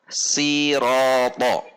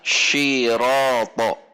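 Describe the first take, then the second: First: It begins with a plain, light s sound. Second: It begins with a hushing sh sound. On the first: "Terkadang ini dibaca atau terbaca siroto, siroto, sin" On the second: "atau bahkan shiroto, pakai shin"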